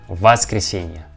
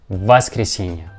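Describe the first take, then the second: No difference in how they are said.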